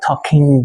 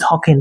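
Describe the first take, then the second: First: The final g sound is fully pronounced. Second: The final g sound is dropped. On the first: The speaker calls it wrong. "not talking" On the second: The speaker calls it right. "Now I'm talking, drop the G"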